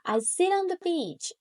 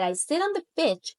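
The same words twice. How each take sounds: First: The words are pronounced carefully and clearly. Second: The words are pronounced carelessly and sloppily. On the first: The speaker calls it right. "I try to say" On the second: The speaker calls it wrong. "instead of that, I said"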